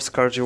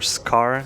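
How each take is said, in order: First: The name ends with a soft 'j' sound. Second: The name ends with an 'r' sound. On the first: "I like Scarge more" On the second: "you should read them as just just Scar"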